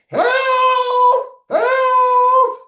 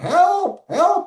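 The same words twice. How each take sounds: First: It sounds much more distressed. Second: It sounds only mildly distressed.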